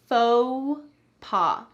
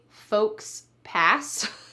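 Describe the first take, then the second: First: It is said with a French-style pronunciation. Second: It is said with an anglicized, spelled-out pronunciation. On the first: The speaker calls it right. "we're going to say it in the French style" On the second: The speaker calls it wrong. "We don't say folks pass"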